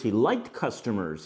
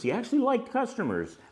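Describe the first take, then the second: First: Said in the usual way. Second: Actually said much higher and leaned on; stress on actually. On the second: Shown as a demonstration. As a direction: lift and punch the word actually.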